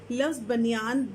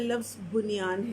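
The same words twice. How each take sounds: First: Said in the usual way. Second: بنیان pronounced "bunyaan", short u after b; pesh on be. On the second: Shown as a demonstration. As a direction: say بنیان with "bu" as its first sound. (بنیان، بے پر پیش کے ساتھ) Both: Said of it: "اس میں بے کے اوپر پیش ہے".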